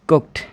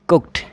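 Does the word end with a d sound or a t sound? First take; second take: t sound; t sound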